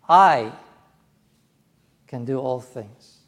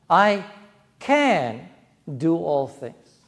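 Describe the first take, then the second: First: The stress falls on the word I. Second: The stress falls on the word can. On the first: The speaker personally, not only famous people, is able. "Me. Not just Billy Graham or Dennis Paderny, but me" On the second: It is possible. "It's possible. I can"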